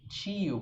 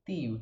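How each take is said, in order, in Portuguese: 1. O T é sibilado, como o som de ch. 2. O T é uma oclusiva seca e firme. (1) "como eu e outros cariocas falariam" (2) "um T bem seco"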